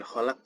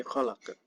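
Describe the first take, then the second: First: "kholak" stopped dead at the end; unreleased final consonant on "kholak"; without qalqalah. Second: "kholak" with echoing final q; "kholak" released into a short uh; with qalqalah. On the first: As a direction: cut "kholak" off with no echo. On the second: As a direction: let the end of "kholak" bounce. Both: Shown as a demonstration.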